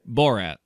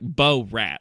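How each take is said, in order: First: The name flows together as one word. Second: The name is split into two separate words. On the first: The speaker calls it right. "Like it's one" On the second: The speaker calls it wrong. "like it's two different words"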